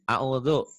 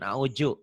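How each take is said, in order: First: The middle consonant is a soft dh sound. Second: The middle consonant is a j sound. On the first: The speaker calls it right. "A'udhu, bukan a'uju" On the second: The speaker calls it wrong. "bukan a'uju"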